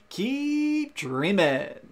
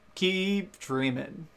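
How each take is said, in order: First: It is said in a happier, brighter tone. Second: It is said in a sad, subdued tone.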